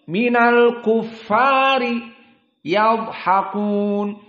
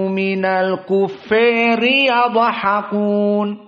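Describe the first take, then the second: First: The a in kuffari is a fully open a. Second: The a in kuffari is pulled strongly toward e. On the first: "qiraah jumhur dalam keadaan al-kufar fathah" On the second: "ditambah imalah"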